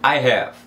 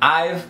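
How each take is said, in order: First: The two words are said fully and separately. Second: The words are contracted into one syllable.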